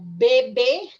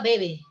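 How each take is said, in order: First: Slow, both b sounds fully closed by the lips. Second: Fast, the second b softened, lips not closing. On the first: "con pausa" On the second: "en el habla rápida"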